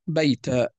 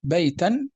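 First: "بيتا" as "bayta", without n; pausal long a. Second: "بيتا" as "baytan"; fatha tanween. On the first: Teacher showing how to stop, pausal long a. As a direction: end "بيتا" on an open a. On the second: Teacher contrasting linked and stopped forms, fatha tanween. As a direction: sound the final n of "بيتا". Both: Shown as a demonstration. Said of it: "هذا التنوين حال الوقف طبعًا يحذف".

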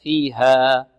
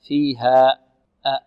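First: Slow فيها fading on open "aa"; فيها, pure long alif ending; correct open ending. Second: فيها cut off with a glottal catch; فيها ending "haa'"; wrong hamza ending. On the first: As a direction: release the end of فيها with no glottal catch. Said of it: "لا، فيها". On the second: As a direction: close the final a of فيها with a hamza. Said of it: "آه، خطأ". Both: Shown as a demonstration.

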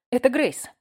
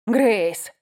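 First: Said in the usual way. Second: Shouted name, out of breath; roaring name. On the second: Acted. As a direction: roar her name, panting. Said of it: "взревел он".

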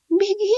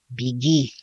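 First: Тоненький писклявый переспрос «Беги?»; очень высоко и слабо, с вопросом; слабый голос мыши. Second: Said in the usual way. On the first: A narrator's reading. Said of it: "слабым голосом переспросила мышь". (мышь слабо переспрашивает) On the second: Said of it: "сказал он".

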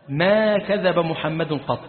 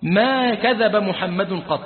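First: "ما كذب محمد قط" laid down slowly, each word weighed; slow solemn insistence on "ما كذب محمد قط"; slow and weighty. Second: "ما كذب محمد قط" repeated slowly with calm weight; slow and weighty. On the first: Wife warning her husband, slow and solemn. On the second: Preacher repeating the wife's warning, slow and solemn. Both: Shown as a demonstration. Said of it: "سبحان الله".

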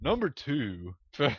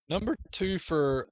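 First: Announcer voice collapsing into laughs; breaking into laughter. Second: Higher, booming announcer read; radio announcer voice. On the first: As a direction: try the announcer line but crack up. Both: Pretend. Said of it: "radio announcer voice".

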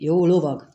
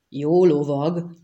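First: Said in the usual way. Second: Slow, rising question on lovag; incredulous. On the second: A narrator's reading. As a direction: echo it in drawn-out disbelief. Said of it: "fölöttébb hitetlenkedve nézte". (hitetlenkedő, elnyújtott kérdés)

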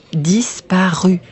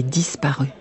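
First: DISPARU drawn out syllable by syllable; half-speed, deliberate "Disparu"; emphatic repeat. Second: Said in the usual way. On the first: A narrator's reading. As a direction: stretch "Disparu" slowly for weight. Repeats the shocking word for emphasis.

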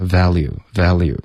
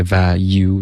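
First: Value with a light but audible l; L pronounced. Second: Value as "va-you", no l at all; L left out. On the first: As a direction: say value as "val-you". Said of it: "肯定有一个了". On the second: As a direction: say value jumping straight from va to you. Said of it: "就直接来个value这样". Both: Shown as a demonstration.

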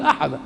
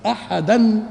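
First: أحدا ending on a long open a, no n; pausal form. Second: أحدا said loudly as ahadan, with a sounded final n; connected form. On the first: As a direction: stop on أحدا as ahadaa, dropping the tanween. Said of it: "لما تقف تقول أحدا". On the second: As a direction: voice أحدا with tanween, ready to link onward. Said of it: "إنما على الوصل". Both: Shown as a demonstration.

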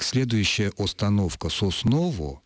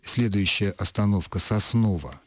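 First: Unstressed O's in "Сосново" said as full round O; over-pronounced O. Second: First O of "Сосново" said as a short A-like sound; standard akanye. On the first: Linguist mocking up a train announcement for a listener, over-pronounced O. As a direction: read "остановка Сосново" as spelt, every O kept. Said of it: "объявляли примерно так". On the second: Linguist showing how an announcer normally says it, standard akanye. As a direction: say "Сосново" with reduced vowels, like "Sasnova". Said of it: "то он именно акает". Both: Shown as a demonstration.

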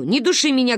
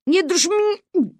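First: Said in the usual way. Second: Strained repeat. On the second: Acted. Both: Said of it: "говорю".

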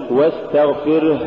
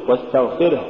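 First: واستغفره with a long exhaled final h; exaggerated breath ending واستغفره; overdone softness. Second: واستغفره with a short breathed h; balanced final ha. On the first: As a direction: drag out the last h of واستغفره. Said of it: "ولا تقل". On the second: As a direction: end واستغفره on a brief h. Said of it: "قل". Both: Shown as a demonstration.

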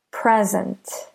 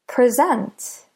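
First: "Present" as in a gift, PREZ-ent; stress on first syllable. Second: "Present" as the verb, pre-ZENT, higher; stress on second syllable. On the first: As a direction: hit PRE in "Present", keep the ending light. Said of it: "stress the first syllable in present". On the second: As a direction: hit SENT in "Present", first syllable light. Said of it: "If we stress the second syllable". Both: Shown as a demonstration.

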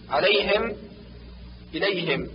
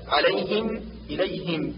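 First: عليهم، إليهم with final i opened toward e; kasra leaning to fatha. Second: عليهم، إليهم with a clear i in -him; pure kasra. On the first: Teacher shows the hidden error, عليهم، إليهم ending in -hem. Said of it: "كالنطق بالكسرة ما بين الكسرة والفتحة". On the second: Teacher gives the correction, عليهم، إليهم with pure i. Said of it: "والصواب". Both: Shown as a demonstration.

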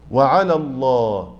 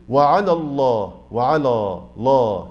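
First: وعلى الله slow with a light lam; correct light lam. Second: وعلى الله slow, with a lower heavy lam; mock the reciters who thicken the lam of وعلى الله; imitating a heavy lam. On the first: Shown as a demonstration. Teacher modelling the correct light lam. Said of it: "ظبطت معايا". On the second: Teacher imitating the wrong heavy وعلى الله. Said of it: "بعض الناس يفخمها ويقول إيه؟".

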